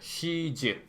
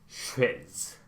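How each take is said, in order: First: It is said as two syllables, Korean-style. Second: It is said as one syllable, native-style.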